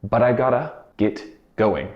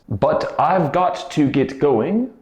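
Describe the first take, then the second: First: "I've got to" is reduced to "gotta". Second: "I've got to" is said in full. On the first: "in day-to-day quick spoken speech, it becomes I gotta" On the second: "turns into"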